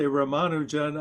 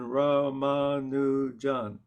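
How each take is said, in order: First: The second syllable gets the stress. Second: All syllables get even stress. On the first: The speaker calls it wrong. "I'm still sort of emphasizing the second syllable a bit" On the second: The speaker calls it right. "there aren't emphases on syllables. So, in other words, it's even"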